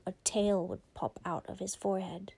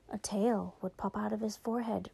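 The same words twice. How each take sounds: First: Said in the usual way. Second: Whispered softly, like a secret; spooky whisper. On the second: Shown as a demonstration. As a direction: hush it to build suspense. Storyteller repeats line, then whispers.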